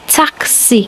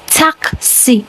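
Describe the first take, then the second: No difference in how they are said.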